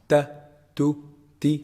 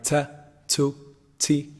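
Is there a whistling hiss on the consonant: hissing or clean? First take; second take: clean; hissing. First: The consonant is clean without any hiss. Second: The consonant carries a whistling hiss. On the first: The speaker calls it right. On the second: The speaker calls it wrong.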